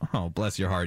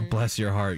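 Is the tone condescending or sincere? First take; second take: condescending; sincere. First: The tone is mocking and condescending. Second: The tone is warm and affectionate. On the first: The speaker thinks the person is a fool. "or the meanest thing you say to someone" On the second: The speaker thinks the person is sweet. "It could either be the nicest thing you say to someone"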